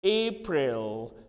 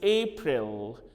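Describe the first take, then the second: The two takes are said the same way.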